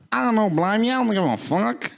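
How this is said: It is said in a put-on Australian accent.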